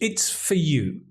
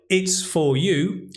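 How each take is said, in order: First: The word 'for' is reduced and weak. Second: The word 'for' is said fully.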